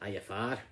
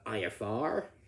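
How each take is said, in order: First: It is said with a Scottish accent. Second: It is said with an American accent. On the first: "a Scottish person saying" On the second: "an American saying"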